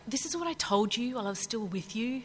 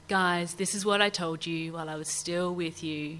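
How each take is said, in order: First: It sounds impatient and exasperated. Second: It sounds patient and kind.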